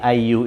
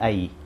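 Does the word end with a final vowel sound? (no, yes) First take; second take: yes; no. First: The word ends with a final u vowel. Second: The final vowel is dropped, ending in 'ai'. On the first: The case ending is pronounced in full. "jadi ayu itu" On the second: The word is read in pause form, as in conversation. "kalau kita wakafkan dia menjadi ai"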